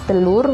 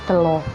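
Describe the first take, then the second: First: The word ends in an 'ur' sound. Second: The word ends in an 'o' sound.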